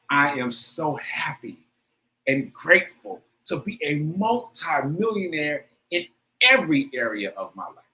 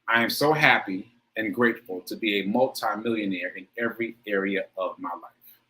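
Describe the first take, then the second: First: It is said with strong, heartfelt feeling. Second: It is said plainly, without much feeling.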